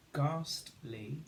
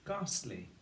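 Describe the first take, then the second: First: "Ghastly" split into ghast, then ly; syllable by syllable. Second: Said in the usual way. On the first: Shown as a demonstration. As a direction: say Ghastly in two parts with a gap. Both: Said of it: "Two syllables".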